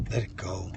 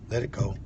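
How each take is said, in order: First: Breathy unvoiced whisper of the same words. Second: Said in the usual way. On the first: Shown as a demonstration. Worship leader whispering surrender to the listeners. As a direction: let it go, barely breathed. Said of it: "repeated after plain take". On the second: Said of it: "repeated as a whisper".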